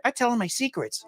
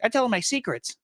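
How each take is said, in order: First: Put-on higher, eerie kid whisper-tone; lightly voiced spooky kid; creepy child voice. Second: Higher, eerie little cousin; lightly voiced spooky kid; creepy child voice. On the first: Kid confiding about his doll, higher creepy voice. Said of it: "kids are just like". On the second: Young cousin talking about his doll, higher creepy voice. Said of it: "he'd be like".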